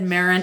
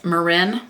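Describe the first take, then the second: First: Marin stressed on the first syllable; front-stressed Marin, rhyming with Karen; mistaken pronunciation. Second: Marin stressed on the second syllable; short unstressed first syllable in Marin, then RIN; corrected pronunciation. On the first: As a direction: say Marin as MARE-in. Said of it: "quick correction, I said Marin". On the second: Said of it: "it is Marin". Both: Shown as a demonstration.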